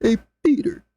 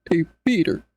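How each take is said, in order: First: Tortured gingerbread man. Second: Lower, steady cartoon dad voice; low Hey Peter voice. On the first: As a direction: squeak it like a tortured cookie. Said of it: "gingerbread man from Shrek getting tortured". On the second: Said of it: "versus Hey Peter". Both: Shown as a demonstration.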